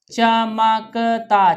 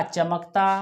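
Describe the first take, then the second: First: चमकता stretched out slowly as cha-ma-ka-ta; teacher sounding out चमकता for the class; slow syllable reading. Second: Said in the usual way. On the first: Shown as a demonstration. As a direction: spell चमकता out slowly and clearly.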